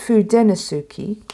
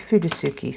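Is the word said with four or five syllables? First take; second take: five; four. First: The word is said with five syllables. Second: The word is said with four syllables. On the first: This follows the written form. "if you pronounce it how it's written" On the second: This is what many people commonly say. "I have heard quite a few say Fudasuki"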